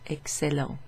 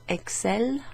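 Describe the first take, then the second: First: The word ends with a final nasal vowel. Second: The word ends without a final nasal vowel. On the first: It is the adjective meaning excellent. "you pronounce the final E N T as an en sound" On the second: It is the verb meaning they excel. "in the verb, in the they form, the E N T is just not pronounced"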